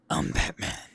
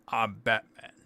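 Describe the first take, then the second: First: It is a loud, full, gravelly voice. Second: It is a tight, pinched throat voice. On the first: "the typical one that everybody likes to do, Bale Batman" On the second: "pinches a few of his vocal cords on the inside"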